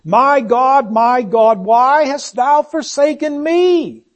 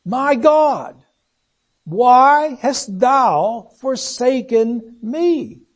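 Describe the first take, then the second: First: Lifted, louder anguished cry to God; raised, pleading outcry, slowing at the end. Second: Slow, drawn-out grief-laden plea; very slow, heavy with sorrow, falling away at the end; grieving. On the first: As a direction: call it out from the cross, pitched up. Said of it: "as he cried out". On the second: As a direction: let the grief stretch every word. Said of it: "There's grief there". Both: Acted.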